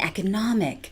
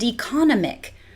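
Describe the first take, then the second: First: The stress falls where native speakers put it. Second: The stress falls where Singapore English puts it. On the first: The speaker calls it right. "instead of" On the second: The speaker calls it wrong. "I even hear"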